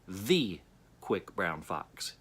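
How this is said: The word 'the' is stressed. "underline just the first word"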